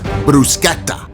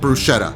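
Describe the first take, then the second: First: It is said with an Italian-style pronunciation. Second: It is said with a plain American pronunciation. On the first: The speaker calls it wrong. "you come at me out of nowhere with bruschetta, we will have a problem" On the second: The speaker calls it right. "unless you normally speak with an Italian accent, it's called bruschetta"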